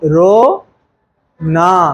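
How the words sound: There is a pause between the two parts. The speaker calls it right. "Comma सही जगह लगाए तो सही मतलब निकलता"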